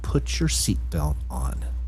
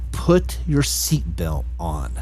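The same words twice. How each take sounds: First: It is said somewhat louder. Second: It is screamed very loudly.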